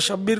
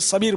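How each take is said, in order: First: The name begins with a 'sh' sound. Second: The name begins with an 's' sound. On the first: The speaker calls it right. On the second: The speaker calls it wrong.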